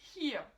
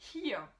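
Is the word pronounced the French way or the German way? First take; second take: German; German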